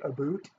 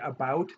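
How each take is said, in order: First: The vowel sounds like 'oo' in 'boot'. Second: The vowel sounds like 'ow' in 'out'. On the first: "they say aboot" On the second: "they don't say about"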